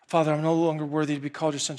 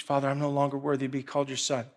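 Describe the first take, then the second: First: Fast, nervous run-through; rushed rehearsal. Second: Quiet, quick rehearsed line; rehearsing under breath. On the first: Son rehearsing again, fast and nervous. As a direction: rush it like practicing. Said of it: "imagining how this conversation's gonna go". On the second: Son rehearsing his speech, softer and quick. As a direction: murmur the speech to yourself. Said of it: "rehearsing this speech". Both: Retold or imitated.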